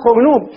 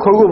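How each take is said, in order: First: The first vowel is u and n is kept. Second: The first vowel is a and r is doubled. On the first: "يضمونه من دون حذف الباء، نقول خرنوب" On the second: "إذا شددوا الراء الفتحة الخاء تبقى على حالها"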